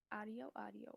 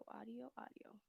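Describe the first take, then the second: First: Said in the usual way. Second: Whispered word repeat; whispering. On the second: Shown as a demonstration. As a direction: whisper audio, audio under breath. Testing audio.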